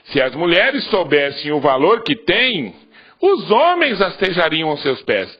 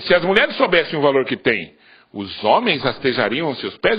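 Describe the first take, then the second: First: The voice falls at the end like a statement. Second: The voice rises at the end like a question. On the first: The men would crawl at the women's feet. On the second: It casts doubt on whether the men would crawl.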